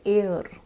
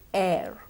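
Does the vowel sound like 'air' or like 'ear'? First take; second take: ear-like; air-like. First: The vowel drifts toward an ear-like sound. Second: The vowel stays open like in air. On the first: The speaker calls it wrong. "all of us tend to say air, but that is incorrect" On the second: The speaker calls it right. "What we need to say is air"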